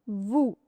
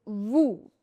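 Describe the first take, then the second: Both takes have the same delivery.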